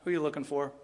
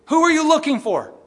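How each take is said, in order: First: Much softer, lower, tender question; soft sweet Jesus voice; gentle Jesus. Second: Loud, high, scolding question; harsh scowling take; stern Jesus. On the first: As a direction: ask it gently, like comforting someone. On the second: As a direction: bark it like a scowling master. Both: Shown as a demonstration. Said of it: "I don't think he had a scowl".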